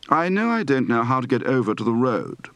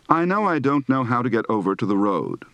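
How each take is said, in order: First: "know", "don't", "road" as neh-oo, deh-oont, reh-ood; fronted "uh-oo" glide in "know" and "over"; British O diphthong. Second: Said in the usual way. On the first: Shown as a demonstration. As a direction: start the O of "road" on a central vowel. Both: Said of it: "Practice for the diphthong O".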